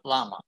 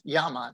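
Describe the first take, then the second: First: The word begins with an L sound. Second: The word begins with a Y sound. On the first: The speaker calls it wrong. "not llama" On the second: The speaker calls it right. "The double L is pronounced like a Y in English, so it's llama"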